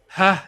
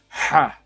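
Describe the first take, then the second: First: The h sound is soft and ordinary. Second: The h sound is harder and more forceful. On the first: "which is like ha, normal normal H" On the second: "a basically harder version of H"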